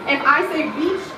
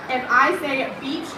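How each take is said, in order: Both takes have the same delivery.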